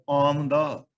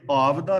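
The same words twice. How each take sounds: First: ਆਮਦਾ said with a clear m, aamda; ਆਮਦਾ stressed, falling at the end; ਆਮਦਾ ਦਾ ਸ਼ੁੱਧ ਉਚਾਰਣ; correct reading shown. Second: ਆਵਦਾ said with a v, aavda; ਆਵਦਾ as the mistaken v form; ਆਵਦਾ ਵਾਲਾ ਗਲਤ ਉਚਾਰਣ; wrong reading shown. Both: Shown as a demonstration. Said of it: "ਤੇ ਆਵਦਾ ਨਹੀਂ ਪੜਨਾ".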